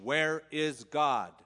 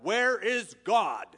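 First: It is asked in a firmer, sterner voice. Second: It is yelled loudly in an angry voice.

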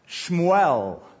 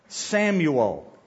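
First: The name is pronounced the Hebrew way, Shmuel. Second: The name is pronounced the English way, Samuel. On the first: "That's the Hebrew pronunciation" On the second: "as we say it"

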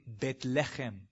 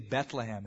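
First: It is said the way Israelis say it. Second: It is said the usual English way. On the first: The speaker calls it right. "It's really Bethlehem" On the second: The speaker calls it wrong. "We say Bethlehem"

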